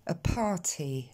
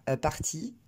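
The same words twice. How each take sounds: First: "a party" with air released after p and t; deux plosives aspirées. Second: "a party" in a strong French accent; French-accented "a party", no puff on p or t; accent très français. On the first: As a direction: explode both p and t in English "a party". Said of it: "mais il faudra dire". (« a party » avec p et t soufflés) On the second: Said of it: "L'accent très français va dire". (« a party » avec un fort accent français) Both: Shown as a demonstration.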